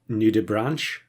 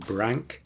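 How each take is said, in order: First: The word ends with a 'ch' sound. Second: The word ends with a 'k' sound. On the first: The speaker calls it wrong. "everyone is pronouncing it Nudibranch" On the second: The speaker calls it right. "it is pronounced Brank"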